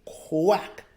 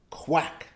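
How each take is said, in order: First: Said in the usual way. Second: Whispered. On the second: Shown as a demonstration. Teacher whispering quack for children to repeat. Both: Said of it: "Repeat after me".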